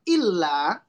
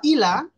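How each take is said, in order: First: The L sound is held long, doubled. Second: The L sound is short, not doubled. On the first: Some people are excepted from loss. The speaker calls it right. "Kalau dibaca illa, maka ada pengecualian" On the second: Believers are in even greater loss. The speaker calls it wrong. "kalau bacanya nggak pakai tasdid, atau kurang tasdidnya, jadi ilah"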